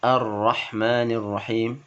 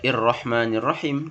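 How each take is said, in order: First: It begins with an 'a' vowel. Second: It begins with an 'i' vowel. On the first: The speaker calls it right. "tetapi Ar-Rahmanir Rahim" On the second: The speaker calls it wrong. "bukan dibaca Ir-Rahmanir Rahim"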